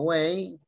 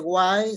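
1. La vocal suena como ay en day. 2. La vocal suena como eye. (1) "sino way" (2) "no se dice why"

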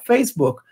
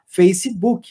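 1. Isso é dito com sotaque americano. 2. Isso é dito com sotaque brasileiro. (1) "No americano vai falar" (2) "aqui no Brasil, as pessoas vão falar"

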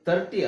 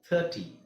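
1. ಮೊದಲ ಸ್ವರ ಚಿಕ್ಕದಾಗಿದೆ, ಕತ್ತರಿಸಿದಂತೆ. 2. ಮೊದಲ ಸ್ವರ ಇನ್ನೂ ಉದ್ದವಾಗಿ ಎಳೆದಂತಿದೆ. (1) "ತರ್ಟಿ ಅಲ್ಲ" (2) "ಅಲ್ಲೂ ಟಿ ಎಚ್ ಆದ್ಮೇಲೆ ನಾವು ಸ್ವಲ್ಪ ಎಳಿಬೇಕು"

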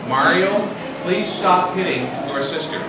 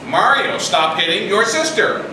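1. Se dice con calma, a volumen normal. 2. Se dice un poco más fuerte de lo normal. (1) "Parents say calmly" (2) "So we say it again. Except a little louder"

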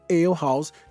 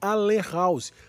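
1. Ale é falado com sons ingleses, como 'ail'. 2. Ale é lido com os sons da escrita portuguesa. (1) "que em inglês se chama Ale House" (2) "O que na pronúncia está errado"

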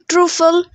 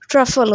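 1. पहला स्वर लंबा 'oo' ध्वनि है। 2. पहला स्वर छोटा 'uh' ध्वनि है। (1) "ट्रूफल नहीं होता" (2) "ट्रफल होता है"

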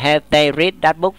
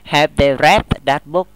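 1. Read được phát âm theo dạng nguyên thể hiện tại. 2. Read được phát âm theo dạng quá khứ phân từ. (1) "Không đọc là have they read that book nha" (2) "Lý do đó là cột 3. Nó là past participle"

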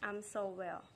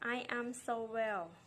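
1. "I" กับ "am" พูดติดกันเป็นพยางค์เดียวค่ะ 2. "I" กับ "am" พูดเป็นคำแยกกันค่ะ

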